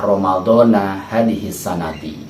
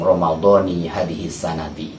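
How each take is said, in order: First: Ramadan ends with an "a" vowel. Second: Ramadan ends with an "i" vowel. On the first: Ramadan is cut off from this year. The speaker calls it wrong. "kesalahan yang fatal di masyarakat kita" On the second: Ramadan is joined to this year as one phrase. The speaker calls it right. "maka dia menyambung"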